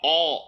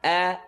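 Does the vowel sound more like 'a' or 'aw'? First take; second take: aw; a. First: The vowel is a rounded aw sound. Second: The vowel is an open, unrounded a sound. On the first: The speaker calls it wrong. "Don't hear aw" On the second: The speaker calls it right. "It's a"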